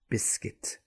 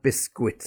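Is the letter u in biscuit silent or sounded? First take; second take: silent; sounded. First: The u is silent after the k. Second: The u is sounded after the k. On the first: The speaker calls it right. "there's also the silent U" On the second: The speaker calls it wrong. "not biscuit, as some people say"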